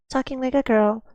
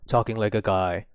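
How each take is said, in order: First: It is said in a feminine voice. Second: It is said in a masculine voice.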